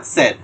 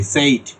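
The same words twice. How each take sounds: First: সেড with a short plain e, no glide; correct pronunciation. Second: সেইট with a gliding ei diphthong; common wrong way. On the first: Teacher gives the right way to say said. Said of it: "এটা সেইট হয় না". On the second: Teacher shows the usual mispronunciation of said. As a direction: say সেইট as the mistaken ei glide. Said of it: "এইভাবে উচ্চারণ করি". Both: Shown as a demonstration.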